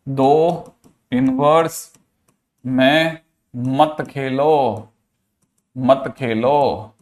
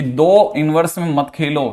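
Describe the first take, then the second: First: Drawn out word by word, with pauses; slow emphatic repetition. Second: Said in the usual way. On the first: Shown as a demonstration. Teacher drilling a key rule into students, slow emphatic repetition. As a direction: spell out the rule very slowly, stretching each word.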